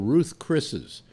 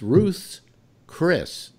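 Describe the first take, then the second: First: The s sound comes after the second name. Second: The s sound comes after the first name. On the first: The speaker calls it wrong. "They go Ruth Chris's" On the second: The speaker calls it right. "but it's Ruth's Chris"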